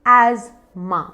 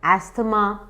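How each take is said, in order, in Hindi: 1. बीच में एक ही 'z' ध्वनि है। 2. बीच में 's' plus 'th' की ध्वनि है। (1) "करेक्ट उच्चारण है एजमा" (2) "कुछ लोग उसे कहते हैं"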